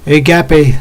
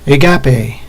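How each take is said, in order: First: The stress is on the syllable 'ga'. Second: The stress is on the syllable 'ga'.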